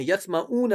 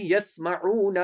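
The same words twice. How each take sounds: First: يَسْمَعُونَ with the ain dropped to a plain vowel; wrong ain pronunciation. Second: يَسْمَعُونَ with a clear throaty ain; correct ain. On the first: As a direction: say يَسْمَعُونَ without the throaty ain. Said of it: "عین ہے، يَسْمَعُونَ نہیں ہے". (يَسْمَعُونَ کو عین کے بغیر غلط پڑھنا) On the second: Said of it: "عین ہے". (يَسْمَعُونَ میں عین حلق سے ادا کرنا) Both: Shown as a demonstration.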